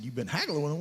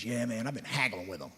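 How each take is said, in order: First: Incredulous echo. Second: Said in the usual way. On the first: Retold or imitated. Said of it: "I said". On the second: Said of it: "And he goes".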